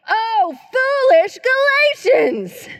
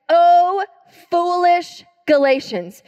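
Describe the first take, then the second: First: It is exclaimed forcefully, with emphasis. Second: It is read calmly, without exclamation.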